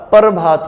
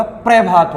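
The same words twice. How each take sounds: First: "प्रभात" as "par-bhaat", vowel between p and r; split "par" pronunciation. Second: "प्रभात" as "pre-bhaat", starting on fused pr; no vowel between p and r in "प्रभात"; joined "pra" pronunciation. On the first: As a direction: close the first syllable of "प्रभात" on r. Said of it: "और इसका जो उच्चारण होगा". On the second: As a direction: say "प्रभात" with a half p into r. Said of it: "इसका उच्चारण क्या होगा". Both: Shown as a demonstration.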